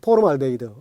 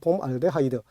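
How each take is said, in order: First: It is said as po-reum-al-de-hee-deu. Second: It is said as pom-al-de-ha-ee-deu. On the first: This is the older form of the name. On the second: This is the officially set form of the name.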